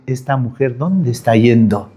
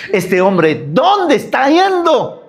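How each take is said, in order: First: Said in the usual way. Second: Exaggerated high question. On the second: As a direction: voice leaps high and slows on ¿dónde está yendo?. (pregunta exagerada, aguda y lenta) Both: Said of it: "el hombre va a decir".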